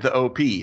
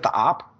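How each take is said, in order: First: It is said as two separate letters. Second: It is said as one short word. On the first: The speaker calls it wrong. "I've been calling it the OP" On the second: The speaker calls it right. "I should be calling it the op"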